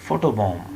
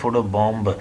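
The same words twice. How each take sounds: First: The final b is silent. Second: A final b sound is pronounced. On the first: The speaker calls it right. "आखिरी बी silent है" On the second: The speaker calls it wrong. "बी को पढ़ने की ज़रूरत नहीं है, फोटो बॉम्ब ऐसे कहने की ज़रूरत नहीं है"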